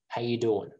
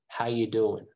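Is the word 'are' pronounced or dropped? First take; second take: dropped; dropped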